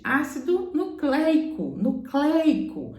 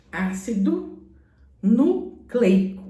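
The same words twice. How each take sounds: First: "nucleico" slow with an open ei; correct pronunciation. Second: "nucleico" drawn out slowly with a closed ei; slow "nucleico" the way the teacher said it; old teacher's way. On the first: Teacher showing the class the correct "nucleico", slow. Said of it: "era pra ser pronunciado corretamente". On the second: Teacher showing the class the old "nucleico", said slowly. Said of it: "A minha professora falava ácido nucleico". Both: Shown as a demonstration.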